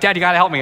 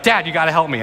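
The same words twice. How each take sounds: First: Higher, more panicked imitation of the boy; the scared son stuck up the tree pleading, pitched higher; freaking out kid. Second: Mild imitation of a scared child's plea; a hint of a panicking boy calling for his dad; panicked kid. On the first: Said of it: "he's freaking out". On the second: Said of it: "the panic is in his voice".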